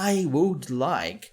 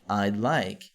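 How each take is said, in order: First: Each word is said fully and separately. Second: The first two words merge into one syllable. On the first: "ficaria muito longo" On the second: "nós encurtamos para I'd like"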